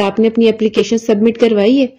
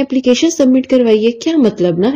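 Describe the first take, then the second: First: Said in the usual way. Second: Imitating a confused echo of the question, application lifted higher; mock bewildered repeat, as if the word is foreign; puzzled echo. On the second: Friend echoing the question back, imitated as baffled. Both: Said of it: "انہوں نے مجھے اس طرح سے بولا".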